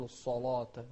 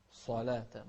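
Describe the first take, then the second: First: الصلاة with a dark backed "law"; wrong heavy lam. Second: صلاة with heavy ص but thin "laa"; correct light lam. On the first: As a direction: mistakenly thicken the ل of الصلاة. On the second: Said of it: "ما تقول الصلاة". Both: Shown as a demonstration.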